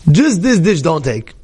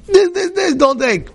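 First: Said in the usual way. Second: Much higher, slow, insistent plea; mother pleading with her son not to take the dish, high and slow; mother's pleading warning. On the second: Retold or imitated.

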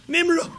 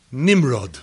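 First: Nimrod leaps much higher on a rising pitch; shocked rising Nimrod; incredulous echo. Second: Said in the usual way. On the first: Shown as a demonstration. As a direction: repeat Nimrod as if it can't be true. Echoed in shocked disbelief.

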